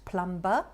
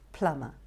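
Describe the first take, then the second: First: A B sound is heard in the middle. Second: No B sound is heard in the middle. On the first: The speaker calls it wrong. "it's not plumber" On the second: The speaker calls it right. "the B that is actually a silent letter"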